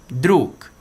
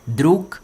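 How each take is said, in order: First: Druk said with final K sound; druk, final G devoiced to K; Russian pronunciation. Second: Druk repeated, louder, final consonant as K; Russian pronunciation. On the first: Teacher models druk, Russian word for friend. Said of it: "Por exemplo". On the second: Teacher repeats Druk for students. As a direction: Druk with a crisp K at the end. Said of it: "esse som aqui de G ... parecendo com um K". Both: Shown as a demonstration.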